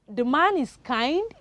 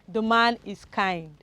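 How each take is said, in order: First: The voice rises at the end. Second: The voice falls at the end.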